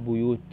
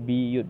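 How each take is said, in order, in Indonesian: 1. Vokal pertama adalah bunyi 'u'. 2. Vokal pertama adalah bunyi 'i'.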